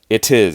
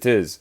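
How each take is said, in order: First: It is said at a normal, unhurried pace. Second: It is said very fast, words running together.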